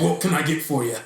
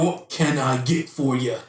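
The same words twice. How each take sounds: First: It is said casually, without careful articulation. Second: It is said with careful, clear articulation.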